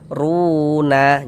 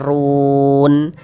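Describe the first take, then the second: First: The word ends with an added a vowel. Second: The word ends on a bare n sound. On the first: The speaker calls it wrong. "Jangan dibaca runa" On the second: The speaker calls it right. "kalau kita berwakaf di huruf nun kita baca run"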